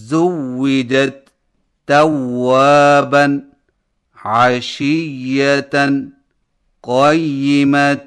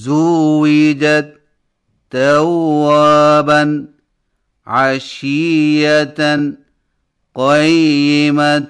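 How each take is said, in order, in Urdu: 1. دوہرے حروف سخت اور مضبوط ادا ہوتے ہیں۔ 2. دوہرے حروف ڈھیلے ادا ہوتے ہیں، تقریباً لمبی مدّوں کی طرح۔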